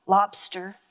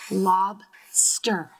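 First: Said in the usual way. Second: "Lobster" in two parts, lob, pause, ster; split into syllables. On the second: Shown as a demonstration. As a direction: break "Lobster" into two lower, separate syllables. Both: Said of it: "breaking it up into syllables".

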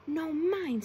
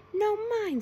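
First: Said in the usual way. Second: High, loud, insistent claim; loud imp. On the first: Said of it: "said the scallywag". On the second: A narrator's reading. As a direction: shout over the others for your turn. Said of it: "said the imp loudly".

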